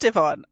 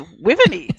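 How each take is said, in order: First: The name is said with two syllables, 'ee-von'. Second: The name is said with three syllables, 'wi-ve-ny'. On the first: The speaker calls it right. "pronounced Yvonne" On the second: The speaker calls it wrong. "I've been reading it Wiveny for years"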